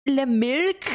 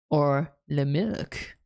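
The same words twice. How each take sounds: First: "Le milk?" squeaked up high with a rising question; "Le milk?" as a high, startled meme question. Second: "Or le milk?" dragged out slow and low; "Or le milk?" as a low, slow, deadpan meme take. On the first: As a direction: toss "Le milk?" up high and bright. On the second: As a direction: stretch "Or le milk?" slowly in a deep voice. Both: Shown as a demonstration.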